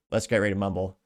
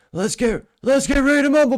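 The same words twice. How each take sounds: First: Said in the usual way. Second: Much higher, much louder mock president; hammed-up doddering announcer shout; Joe Biden impression. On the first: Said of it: "if Joe Biden were to say it". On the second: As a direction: yell it like a confused old politician at a fight. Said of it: "he'd probably say".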